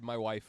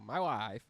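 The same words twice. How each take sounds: First: It is said in a normal voice. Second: It is said in a Borat impression.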